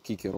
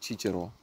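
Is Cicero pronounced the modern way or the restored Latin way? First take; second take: restored Latin; modern. First: Cicero is said with the restored classical Latin pronunciation. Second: Cicero is said with the usual modern pronunciation.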